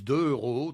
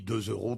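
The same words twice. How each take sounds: First: No z sound links deux to euros. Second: A z sound links deux to euros. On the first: The speaker calls it wrong. "les gens ne font pas la liaison" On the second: The speaker calls it right. "Euro est un nom commun, donc on dit deux euros"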